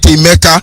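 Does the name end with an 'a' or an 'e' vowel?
a. The name ends with an 'a' vowel. This is the form used outside the speaker's dialect. The speaker calls it wrong. "not Emeka"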